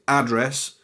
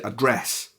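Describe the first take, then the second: First: The stress is on the first syllable. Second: The stress is on the second syllable. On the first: This is the American way of saying it. "You put the emphasis on the start of the word there" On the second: This is the British way of saying it. "where we say address"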